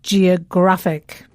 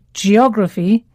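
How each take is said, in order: First: Slow geographic, stress on GRAPH, falling. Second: Geography, OG stressed, rising at the end. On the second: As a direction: lean on OG in geography. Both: Shown as a demonstration. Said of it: "the stress falls on the penultimate syllable".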